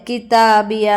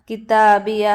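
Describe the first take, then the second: No difference in how they are said.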